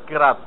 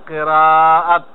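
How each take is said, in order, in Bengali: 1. শব্দটিতে মাঝের স্বরটি ছোট করে বলা হয়। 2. শব্দটিতে মাঝের স্বরটি লম্বা করে, টেনে বলা হয়। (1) "কেরাত তো কোনো শব্দ নেই" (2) "শব্দ হলো কেরাত"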